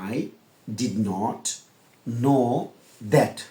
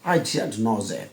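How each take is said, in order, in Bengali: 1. 'Did not' দুটো পূর্ণ শব্দ হিসেবে বলা হয়। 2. 'Did not' এক শব্দে সংকুচিত হয়ে যায়। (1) "বিদেশিরা কি এভাবে বলবে? না" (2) "বিদেশিরা বলবে আই ডিডন্ট নো দ্যাট"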